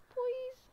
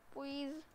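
First: Much higher, pleading please; whiny plea. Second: Said in the usual way. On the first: Real, not acted. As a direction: beg in a whiny high voice. Begging her to leave.

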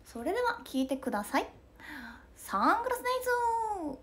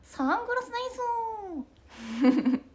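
First: Much higher stage-announcer call. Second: Much higher, slow drawn-out call. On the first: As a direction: announce the song, then call out to the crowd. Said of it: "ツアーの[name]さん". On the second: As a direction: stretch it out like a stage shout to the crowd. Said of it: "[name]のモノマネ". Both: Retold or imitated.

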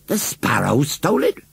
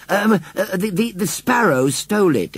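First: Questioning echo with rising end; incredulous repeat. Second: High, hesitant stammering; stammered excuse. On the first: A narrator's reading. Farmer repeats the boy's excuse, incredulous. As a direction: repeat it in disbelief, lifting the end. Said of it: "repeated Farmer Braithwaite". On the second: Acted. Boy explains himself to the farmer, stammering. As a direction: stumble into a feeble explanation, pitched up.

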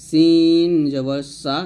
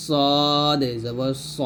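First: সিন জবর সা slow, louder, thin; Arabic sin light. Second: সদ জবর স slow and thick; Arabic ṣad heavy; heavy sad. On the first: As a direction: keep সা light. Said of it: "সিন হবে পাতলা". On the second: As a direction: make স heavy. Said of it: "মোটা করে". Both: Shown as a demonstration.

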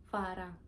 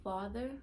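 First: Saint Thomas pronunciation of "fara"; Virgin Islands accent. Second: Said in the usual way. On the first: Shown as a demonstration. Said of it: "my accent". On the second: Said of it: "into the stateside version of speaking".

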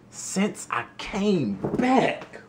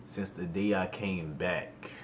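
First: High, slow, rising disbelief; incredulous echo. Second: Said in the usual way. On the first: Retold or imitated. Repeating the news to himself, slow stunned disbelief. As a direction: stretch it out like you can't believe it.

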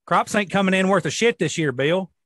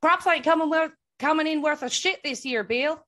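First: Louder country farmer voice; old farmer. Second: Louder, higher mimicked country farmer; copied old farmer. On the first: Retold or imitated. Imitating farmers at a gas station, old farmer voice. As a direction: grumble about the harvest like an old farmer. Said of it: "the old farmers would sit in there and talk". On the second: Co-host trying to copy the farmer line, mock farmer voice. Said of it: "you need to say a sentence if I can try and copy you".

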